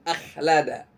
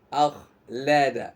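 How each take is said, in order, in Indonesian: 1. Bunyi kh tipis, mulut sempit. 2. Bunyi kh tebal, mulut terbuka lebar. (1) "bukan akhlada" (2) "rongga mulut kita ini seperti kayak dipenuhi udara"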